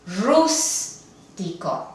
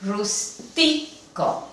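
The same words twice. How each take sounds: First: "rústico" slowly, with a strong, drawn-out RÚS; stress on first syllable. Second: "rústico" slowly, with the stress wrongly on TI; stress on second syllable. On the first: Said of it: "Se pronuncia". ("rústico" con el acento marcado en RÚS) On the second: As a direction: say "rústico" as rus-TI-co, syllables apart. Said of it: "se debería de pronunciar". ("rústico" con el acento en la penúltima, rus-TI-co) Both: Shown as a demonstration.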